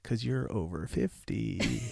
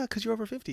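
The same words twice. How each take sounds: First: It is said with pointed, leaning-in emphasis. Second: It is said lightly and casually. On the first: The remark is meant as a dig. "you like leaned into" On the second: The remark is a harmless aside. "You didn't say it like that"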